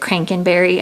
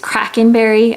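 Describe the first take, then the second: First: The name begins with 'crank', with an n sound. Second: The name begins with 'krak', with no n sound. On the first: The speaker calls it wrong. "I said Crankenberry" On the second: The speaker calls it right. "It's Krakenberry"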